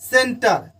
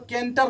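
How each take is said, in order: First: The word begins with an s sound. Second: The word begins with a k sound. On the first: The speaker calls it right. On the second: The speaker calls it wrong.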